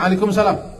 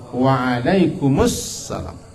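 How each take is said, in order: First: It runs straight from 'waalaikum' into 'salam'. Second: It adds an 'u' vowel before 'salam'. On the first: The speaker calls it wrong. "Orang macam waalaikumsalam" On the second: The speaker calls it right. "Yang sebenarnya waalaikumussalam"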